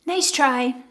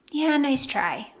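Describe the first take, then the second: First: Said in the usual way. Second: Slow, dry and knowing nice try. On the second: Shown as a demonstration. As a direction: let the nice try land slowly, unimpressed. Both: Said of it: "one-liners that might work".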